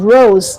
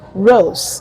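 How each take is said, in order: First: The final consonant is a buzzing Z sound. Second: The final consonant is a hissing S sound. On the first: The speaker calls it right. "it is rose" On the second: The speaker calls it wrong. "is not rose"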